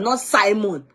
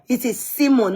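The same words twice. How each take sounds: First: "Simon" said with a long i, SIGH-mon. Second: "Simon" said with an ee, SEE-mon. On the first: Telling viewers what the commenter rejects, "Simon" as SIGH-mon. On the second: Telling viewers how the commenter says it, "Simon" as SEE-mon. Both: Shown as a demonstration.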